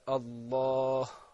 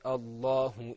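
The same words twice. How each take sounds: First: The final vowel is dropped before a pause. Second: The final short u vowel is pronounced. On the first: The reciter stops on this word. "how we're going to pronounce it when we stop" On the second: The recitation continues without stopping. "that is in the case where we continue"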